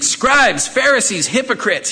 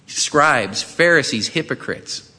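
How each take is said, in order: First: The words are said loudly, with strong emphasis. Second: The words are said mildly, without strong emphasis. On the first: The speaker calls it right. "He's yelling at them" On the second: The speaker calls it wrong. "I probably didn't put the emphasis on that"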